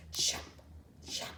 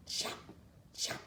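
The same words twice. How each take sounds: The two takes are said the same way.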